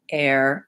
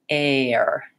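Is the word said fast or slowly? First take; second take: fast; slowly. First: The word is said quickly, in normal speed. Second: The word is said slowly, gliding between sounds. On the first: "Then I can speed up" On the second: "go slowly and glide from A to er"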